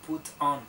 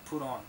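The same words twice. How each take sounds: First: The T is pronounced crisply and separately. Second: The T is softened and linked into the vowel. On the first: "muchas veces la T no es como put on" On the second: "sino put on"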